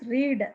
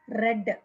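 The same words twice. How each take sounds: First: The word is said as the present tense form. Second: The word is said as the past tense form. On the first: The action happens now. "present tense" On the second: The action happened before.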